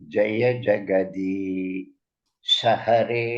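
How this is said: The phrase breaks before 'shahare'. The speaker calls it wrong. "ஷஹரே தனியா போச்சு"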